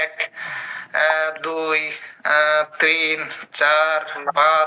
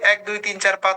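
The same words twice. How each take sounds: First: The numbers are counted slowly, one by one. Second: The numbers are counted quickly, in one breath. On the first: The speaker calls it wrong. "আমি কি এভাবে বলবো যে" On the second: The speaker calls it right. "এভাবেই তো বলি"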